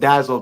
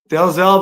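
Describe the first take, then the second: First: The name is said without an L sound. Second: The name is said with an L sound. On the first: "some pronounced it Dazzle" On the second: "I like to pronounce all the letters"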